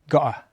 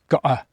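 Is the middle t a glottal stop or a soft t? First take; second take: glottal stop; glottal stop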